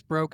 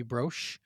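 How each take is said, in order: First: "Broche" said like "broke"; hard-ending pronunciation. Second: "Broche" said like "brosh"; soft-ending pronunciation. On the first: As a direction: end "Broche" on a hard k sound. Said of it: "I'm assuming it's Broche". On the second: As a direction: end "Broche" on a soft sh sound. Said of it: "but it might be Broche". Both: Shown as a demonstration.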